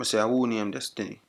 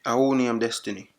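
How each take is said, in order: First: Patois repeated more plainly; Jamaican accent. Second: Thick Jamaican patois; Jamaican accent. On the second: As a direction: speak in heavy Jamaican patois. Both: Acted. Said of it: "used my Jamaican accent".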